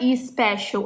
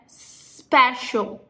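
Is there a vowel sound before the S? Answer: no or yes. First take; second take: yes; no. First: An extra 'i' vowel comes before the S. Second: The word starts directly with the S sound. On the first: The speaker calls it wrong. "Não é special" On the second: The speaker calls it right. "é special. Não é o somzinho de I, é o som de S"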